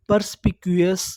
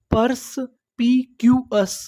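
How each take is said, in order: First: Said in the usual way. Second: "purse पी Q एस" with a clear pause between pieces; broken into syllables. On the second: Shown as a demonstration. Teacher assembling the new word, syllable by syllable. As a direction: sound out "purse पी Q एस" one piece at a time. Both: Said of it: "टुकड़ों में तोड़-तोड़ के पढ़ना है".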